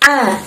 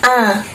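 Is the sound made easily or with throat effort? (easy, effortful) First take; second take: effortful; easy. First: The vowel starts with an effortful catch in the throat. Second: The vowel is said lightly with no throat effort. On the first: The speaker calls it right. "Kita kalau ngucapinnya harus sedikit ada usaha" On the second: The speaker calls it wrong. "kalau misal kita cuma ngucapin A, ... makhrajnya tidak keluar dengan sempurna"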